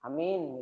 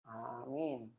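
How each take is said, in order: First: The first vowel is short. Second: The first vowel is held long. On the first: It means trustworthy. "kalau cuman amin, nggak ada ininya" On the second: A request that the prayer be granted. "ini ada alifnya"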